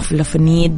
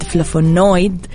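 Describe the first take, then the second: First: The word ends with a short 'nid' sound. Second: The word ends with a 'noid' diphthong sound. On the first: The speaker calls it wrong. "مو فلافونيد" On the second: The speaker calls it right. "عفوا كذا النطق"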